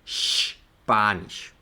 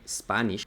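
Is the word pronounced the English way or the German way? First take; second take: German; English. First: It starts with a sh sound. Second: It starts with a plain s sound. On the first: The speaker calls it right. "sino Spanish" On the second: The speaker calls it wrong. "No se dice Spanish como en inglés"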